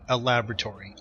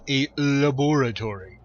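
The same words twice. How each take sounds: First: It is said in an ordinary, everyday way. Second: It is said in a posh, refined way.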